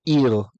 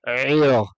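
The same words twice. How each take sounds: First: The word starts with a plain, clear vowel. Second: The word starts with a deep guttural throat sound. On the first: "If we if we don't bother to pronounce the iron" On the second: "But the iron takes a little bit of the breath away"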